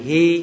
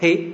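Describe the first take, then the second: First: The vowel is held long. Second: The vowel is cut short. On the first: The speaker calls it wrong. "thay vì hi" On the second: The speaker calls it right. "Hai chữ y này đọc ngắn lại"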